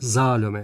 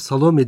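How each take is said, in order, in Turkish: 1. İsim Z sesiyle başlıyor. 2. İsim S sesiyle başlıyor. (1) "orijinal ismi Zalome" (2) "Biz hep Salome diyoruz ama yanlış bu"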